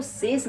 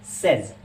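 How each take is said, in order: First: सेस ending in a hissed 's'; wrong pronunciation. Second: सेज ending in a buzzing 'z'; taught pronunciation. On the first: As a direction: say सेस with an unvoiced final 's'. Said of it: "इसको सेस नहीं कहते हैं". (सेस, अंत में 'स') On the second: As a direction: say सेज as 'sez'. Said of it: "इसकी pronunciation होती है". (सेज, अंत में 'ज़' की ध्वनि) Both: Shown as a demonstration.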